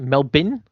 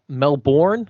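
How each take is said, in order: First: It is said with an Australian pronunciation. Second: It is said with an American pronunciation. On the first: "but as we say" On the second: "if you're in America"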